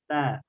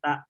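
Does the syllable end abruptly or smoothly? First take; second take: smoothly; abruptly. First: The syllable ends softly without a sharp stop. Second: The syllable ends in a sharp, jerked stop. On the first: The speaker calls it right. "tapi ta, ta, ta ... halus dia" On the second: The speaker calls it wrong. "jangan ta, ta, tidak dihentak"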